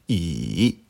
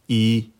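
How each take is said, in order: First: The pitch dips low, then rises. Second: The pitch stays high and level. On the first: "Troisième ton" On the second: "au premier ton, se prononce"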